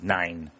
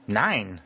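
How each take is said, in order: First: Said in the usual way. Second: Mildly indignant echo; a touch of outrage on one word. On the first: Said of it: "The man shook his head and said". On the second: A narrator's reading. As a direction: throw it back with affronted disbelief. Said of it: "said Dalton indignantly".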